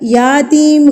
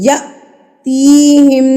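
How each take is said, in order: First: The syllables run smoothly with no catch. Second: A sharp catch follows the first syllable. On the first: The speaker calls it wrong. "गलत है" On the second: The speaker calls it right. "झटका दे के पढ़ेंगे"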